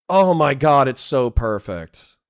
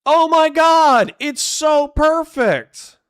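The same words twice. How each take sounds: First: Said in the usual way. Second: Very high, loud, drawn-out gushing; ecstatic squeal. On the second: Real, not acted. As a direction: squeal it slowly in sheer delight. Delighted reaction to a joke.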